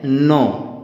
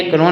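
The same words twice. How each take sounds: First: नो said with a silent k, just "no"; correct pronunciation. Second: कनो with the k sounded, the learner's mistake; wrong pronunciation. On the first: Teacher showing children the right reading, नो. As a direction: leave out the k and say नो. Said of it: "इसको हम पढ़ते हैं नो". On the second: Teacher warning children, कनो with k is wrong. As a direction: sound the k in कनो, as it should not be. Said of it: "ये कनो नहीं होता है". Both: Shown as a demonstration.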